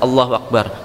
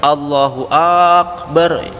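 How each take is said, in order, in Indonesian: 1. Huruf vokal pertama pada Akbar pendek. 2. Huruf vokal pertama pada Akbar dipanjangkan. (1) "Padahal artinya ada Allah Maha Besar" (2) "Hanya yang akbar panjang"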